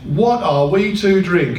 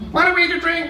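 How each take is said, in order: First: It is read in a plain, neutral voice. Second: It is said in a whiny, complaining voice.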